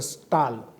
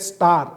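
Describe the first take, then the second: First: It ends with an l sound, Beri-style. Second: It ends with an r sound.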